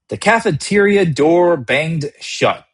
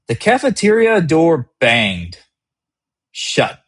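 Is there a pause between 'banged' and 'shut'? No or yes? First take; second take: no; yes. First: It flows without a break before 'shut'. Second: It breaks briefly between 'banged' and 'shut'. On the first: The moment feels controlled and complete. "Each line is a complete step. The pace is steady" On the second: The reader is made to lean forward. "For a second, banged is just a sound. Then shut arrives"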